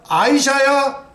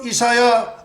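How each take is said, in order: First: The name starts with an 'eye' sound. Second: The name starts with an 'ee' sound. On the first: This is the English pronunciation. "아이사야 그렇게 발음해야 돼요" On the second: This is the Korean pronunciation. "이사야는 우리 발음이고"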